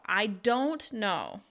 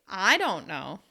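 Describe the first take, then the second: First: The word don't carries the main stress. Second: The word I carries the main stress. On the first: The speaker is really sure they do not know. "you're going to stress don't even more" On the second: Someone else might know. "you can stress the word I"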